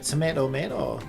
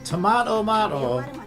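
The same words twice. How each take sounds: First: Tomato is said with an American accent. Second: Tomato is said with a British accent. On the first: "if you're American" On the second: "That was very British of me"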